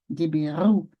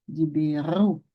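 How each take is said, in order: The two takes are said the same way.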